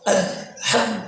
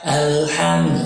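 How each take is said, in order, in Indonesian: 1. Bunyi h diucapkan dengan tegas dan jelas. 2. Bunyi h diucapkan ringan tanpa tekanan. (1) "haknya ditekan" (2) "bukan alham"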